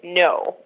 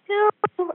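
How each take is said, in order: First: It is said in a deeper, grounded voice. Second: It is said in a higher, lighter voice.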